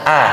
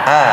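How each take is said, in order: First: The vowel stays a clear, pure a. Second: The same.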